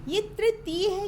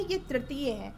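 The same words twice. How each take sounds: First: तृतीय said as "tritiy", raised and louder as the wrong form; तृतीय mispronounced on purpose, higher. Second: तृतीय said as "ritiy" with the vocalic ri; correct तृतीय. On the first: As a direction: exaggerate the wrong tri in तृतीय. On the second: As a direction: calmly model the right ri sound in तृतीय. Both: Shown as a demonstration. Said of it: "पहले आप लोग सही बोलना सीखिए".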